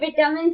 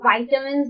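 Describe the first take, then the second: First: The first syllable has a short 'i' sound. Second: The first syllable has a long 'eye' sound. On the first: This is how Indians say it. "Indians बोलते हैं" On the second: This is how Americans say it. "वो American बोलते हैं"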